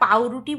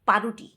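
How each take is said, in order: First: The word is said in full as 'pauruti'. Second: The word is clipped to 'paruti'. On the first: "পাউরুটিকে আমরা পাউরুটি বলি" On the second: "শর্টকাটে বলে"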